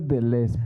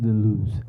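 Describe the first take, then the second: First: The name is said with a Spanish-style pronunciation. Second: The name is said with a French pronunciation. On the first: "Yo lo pronuncio Deleuze" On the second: "supuestamente los franceses Deleuze"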